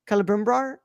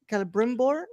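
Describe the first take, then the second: First: Celebrimbor ending in "brar"; name tried out. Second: Celebrimbor ending in "bor"; name tried out. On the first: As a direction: try Celebrimbor with a questioning rise, last syllable as "brar". Trying out an uncertain name. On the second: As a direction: try Celebrimbor with a questioning rise, last syllable as "bor". Second try at the name. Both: Real, not acted.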